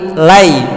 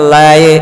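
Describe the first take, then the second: First: The vowel glides from a toward i. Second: The vowel sounds like a plain e. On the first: The speaker calls it right. "padahal dia adalah a dan i" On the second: The speaker calls it wrong. "larinya ke huruf e"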